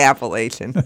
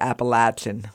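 First: It uses the northern regional pronunciation. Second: It uses the southern regional pronunciation. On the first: This is how people in the North say it. "Since we're north, I say Appalachian" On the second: This is how people in the South say it. "south of the Mason-Dixon line, they say Appalachian"

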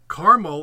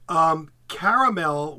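First: The word is said with two syllables. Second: The word is said with three syllables. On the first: This is the Midwestern and Western way of saying it. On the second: This is the East Coast way of saying it.

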